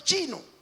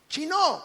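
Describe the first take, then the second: First: The stress is not on the last syllable. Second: The stress is on the last syllable. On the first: The speaker calls it wrong. "no chino" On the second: The speaker calls it right. "con doble O y acento en la última"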